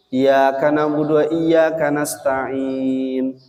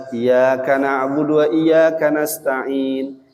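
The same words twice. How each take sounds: First: Iyyaka na'budu with a single light y, slow; wrong, no tasdid. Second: Iyyaka na'budu with the doubled yy held, slow; correct with tasdid. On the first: Teacher demonstrating the wrong reading without tasdid. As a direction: drop the doubling on Iyyaka. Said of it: "tidak dibaca tasdid". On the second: Teacher demonstrating the correct doubled reading. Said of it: "Dibaca iyyaka". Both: Shown as a demonstration.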